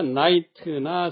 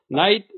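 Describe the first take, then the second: First: It ends with a full extra 'teu' syllable. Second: It ends clipped, with no extra syllable. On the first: The speaker calls it wrong. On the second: The speaker calls it right.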